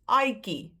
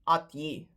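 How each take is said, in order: First: The ending is said with a 'ki' sound. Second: The ending is said with a 'tji' sound. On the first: The speaker calls it right. "So it's aiki" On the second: The speaker calls it wrong. "not atji"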